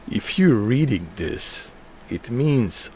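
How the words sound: It is read in a gruff, put-on action-hero voice.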